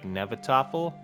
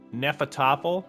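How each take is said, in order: First: The consonant after the first vowel is v. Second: The consonant after the first vowel is f. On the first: This is how some dialects say it. "the F has a V sound in some dialects" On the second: This is the local English way to say it. "is how you would say it"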